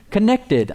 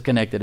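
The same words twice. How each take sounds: First: Higher-pitched British lady imitation; British-accented announcement, pitched up. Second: Said in the usual way. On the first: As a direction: mimic a British woman's device voice saying it. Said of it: "It's a good British accent". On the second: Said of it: "I like the way she says".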